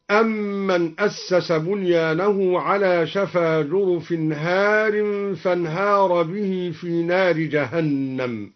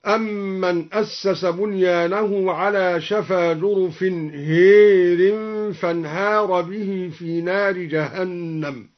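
First: Said in the usual way. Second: هير, the alif of هار tilted to a long "ē", "hērin"; imala in هار. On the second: Shown as a demonstration. (إمالة ألف هار: هير) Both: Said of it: "ألف هار هكذا".

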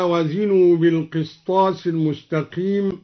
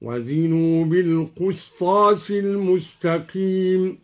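First: Said in the usual way. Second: Slow recitation, بالقسطاس said "bil-qustas"; tartil, "qus" rather than "qis" in بالقسطاس; damma on the qaf. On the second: Shown as a demonstration. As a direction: chant slowly with a u after the q in بالقسطاس. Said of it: "ضم الدوري القاف هكذا".

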